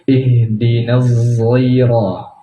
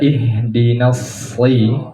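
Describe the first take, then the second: First: The word begins with a thickened z sound. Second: The word begins with an emphatic s sound. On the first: "zainya ditebalkan" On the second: "dengan sod"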